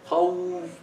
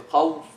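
First: The waw has exaggerated lip rounding. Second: The waw is doubled and cut short. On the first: "Don't round the lips too much" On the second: "You don't say khawf"

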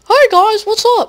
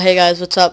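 First: It is said in a put-on voice. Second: It is said in his natural voice.

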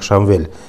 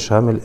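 First: The name is said with a v sound. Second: The name is said without a v sound. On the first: The speaker calls it right. "это имя произносится как Шамвиль" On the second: The speaker calls it wrong. "имя Шамиль это является галат, то есть ошибкой"

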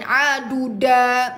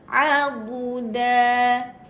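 First: The syllables are said with heavy, forceful energy. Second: The syllables are said softly and lightly. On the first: The speaker calls it wrong. "Bukan ... Semangat sangat tu" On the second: The speaker calls it right. "Kalau da ni dia manja. Ha, gedik-gedik sikit"

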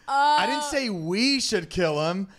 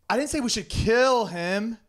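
First: The stress falls on the word 'we'. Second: The stress falls on the word 'kill'.

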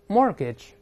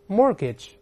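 First: The t in the middle is silent. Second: The same.

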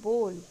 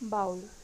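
First: The vowel sounds like the one in go. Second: The vowel sounds like the one in cow. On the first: The speaker calls it right. "इसका सही pronunciation है बोल" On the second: The speaker calls it wrong. "ये भी हम सब गलत pronounce करते हैं"

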